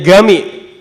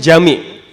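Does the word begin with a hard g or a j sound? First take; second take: hard g; j sound. First: The word begins with a hard g sound. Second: The word begins with a j sound. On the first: This is how it is said in Egypt. "di situ dijelaskan bahwa masjid itu disebutnya gami" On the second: This is how it is said in standard Arabic.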